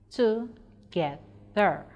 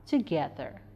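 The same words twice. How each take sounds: First: "Together" slowly split into three separate syllables. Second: Said in the usual way. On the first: Shown as a demonstration. Teacher showing three syllables in "Together", slow and separated. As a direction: break "Together" apart, pausing after each syllable. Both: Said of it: "we have three syllables in that word".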